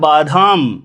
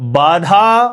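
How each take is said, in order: First: The word ends with a final m sound. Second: The word ends in a vowel, without m. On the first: The speaker calls it right. "लेकिन उसमें मकार लगेगा" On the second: The speaker calls it wrong. "Sorry मैंने पहले बाधा शब्द का उच्चारण किया था"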